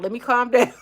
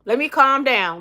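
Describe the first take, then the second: First: Breaking into laughter mid-phrase; laughing at herself for getting worked up. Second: Said in the usual way. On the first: Real, not acted. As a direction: laugh through it at your own heat.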